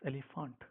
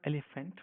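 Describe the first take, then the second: First: It is said with a German 'fa' ending. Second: It is said with an English pronunciation. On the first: The speaker calls it right. "but it's elephant because F and A makes it fa" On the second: The speaker calls it wrong. "it's not elephant"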